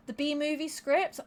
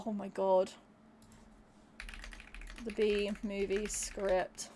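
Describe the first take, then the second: First: Said in the usual way. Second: Low, slow, dreading it. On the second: Real, not acted. Streamer reads out a dreaded request, low and slow. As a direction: let the title sink in slowly, dreading it.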